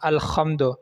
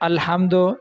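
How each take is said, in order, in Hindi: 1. बीच का व्यंजन खरखराती ख़ा की आवाज़ है। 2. बीच का व्यंजन साँस वाली हा की आवाज़ है। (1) "हा की बजाय खा पढ़ना" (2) "यहाँ हा है"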